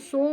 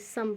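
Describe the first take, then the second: First: The vowel sounds like a long 'oh'. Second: The vowel sounds like a short 'uh'. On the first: The speaker calls it wrong. "इसको सोम नहीं पढ़ेंगे" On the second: The speaker calls it right. "सम पढ़ेंगे"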